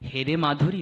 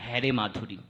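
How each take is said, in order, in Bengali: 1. প্রথম স্বরধ্বনিটি একটি উচ্চ 'e' ধ্বনি। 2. প্রথম স্বরধ্বনিটি একটি বিবৃত 'ae' ধ্বনি। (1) "যখন হেরে মাধুরী হবে তার ভাব অর্থটা একরকম হবে" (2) "আর যখন হ্যারে মাধুরী হবে তার ভাব অর্থটা আরেক রকম হবে"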